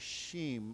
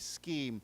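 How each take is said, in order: First: The word is said the British way. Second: The word is said the American way. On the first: "I think the British often will say scheme. I think they say that differently" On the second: "Americans always say scheme"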